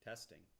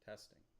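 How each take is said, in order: The two takes are said the same way.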